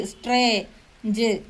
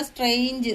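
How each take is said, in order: First: സ്ട്രേഞ്ച് broken into സ്ട്രേ, pause, ജ്; sounded out in parts. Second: Said in the usual way. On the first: Shown as a demonstration. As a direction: say സ്ട്രേ, then ജ് on its own. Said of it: "കൂടെ ചേരുമ്പോ സ്ട്രേ". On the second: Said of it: "ഈ complex syllable words".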